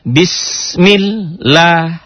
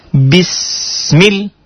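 First: "bismillah" drawn out and chanted slowly; slow recitation. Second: "Bismil" cut short with a sharp stop; clipped syllable drill. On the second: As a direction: hit "Bismil" and stop dead. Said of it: "Ta'awudnya dulu diperbaiki". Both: Shown as a demonstration.

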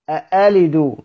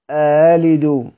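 First: أألد with a clear glottal stop on the hamza; fully sounded hamza. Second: أألد slowly, second hamza softened into a glide; eased hamza. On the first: Teacher sets up a contrast for students, full hamza in أألد. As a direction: articulate each hamza of أألد distinctly. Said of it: "يبان لك المحقق والمسهل". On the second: Teacher answers how it is eased, softened hamza in أألد. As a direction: draw out أألد, melting the second hamza with no full stop. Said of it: "هنطقها إزاي مسهلة؟". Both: Shown as a demonstration.

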